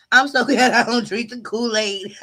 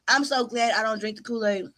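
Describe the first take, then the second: First: Line breaks into a real laugh mid-sentence; can't keep a straight face, chuckle through the words. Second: Said in the usual way. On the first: Real, not acted. Streamer laughing at her own Kool-Aid joke.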